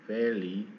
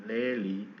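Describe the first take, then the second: Both takes have the same delivery.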